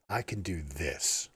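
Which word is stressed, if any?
this. The word 'this' carries the stress. "inflect on each of the different words"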